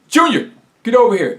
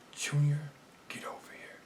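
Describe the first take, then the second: First: It is yelled loudly. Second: It is whispered softly.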